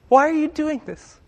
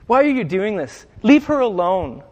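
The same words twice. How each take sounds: First: High, harsh, snorted question; scoffing rebuke. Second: Firm, raised, protective rebuke; protective big brother. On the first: Critics scoffing at the woman, a high harsh rebuke. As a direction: scoff at her like an angry horse snorting. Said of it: "angrily snorted at". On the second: Jesus defending the woman like a big brother, firm and protective. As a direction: step in beside her and shield her. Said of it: "like a big brother to her". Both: Retold or imitated.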